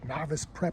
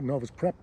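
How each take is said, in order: First: The first word ends with an 'iss' sound. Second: The first word ends with an 'us' sound. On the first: "however you want to pronounce it" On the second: "I like a Novus. I know it's wrong"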